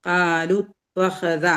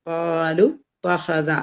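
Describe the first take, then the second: The two takes are said the same way.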